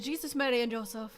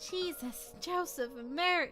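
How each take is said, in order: First: It is said very fast, like the mother. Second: It is said at a normal pace.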